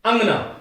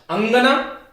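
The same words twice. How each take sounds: First: अंगना said short, अं run straight into ग with no stop; quick anusvara. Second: अंगना with a held, nasalised first vowel, a pause on अं; held nasal. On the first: Teacher showing अंगना as woman, said short and quick. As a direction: clip अंगना, no pause on अं. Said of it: "रुका नहीं जाता". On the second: Teacher showing अंगना as courtyard, lingering on nasal. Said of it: "ये इस पे रुका". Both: Shown as a demonstration.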